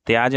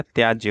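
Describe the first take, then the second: First: त्याज ending on bare j; wrong pronunciation. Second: Said in the usual way. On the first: Shown as a demonstration. Teacher shows students the error, त्याज without final y. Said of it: "नहीं होता है". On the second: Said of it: "होता है".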